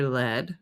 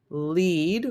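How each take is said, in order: First: "lead" as LED; the metal "lead", with a short e; short e vowel. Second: "lead" as LEED; the verb "lead", with a long ee; long ee vowel. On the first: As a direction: say "lead" to rhyme with bed. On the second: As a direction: say "lead" to rhyme with need. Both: Shown as a demonstration. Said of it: "lead or lead".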